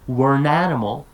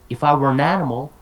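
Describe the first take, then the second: First: The words are blended together into one. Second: Each word is said separately and clearly.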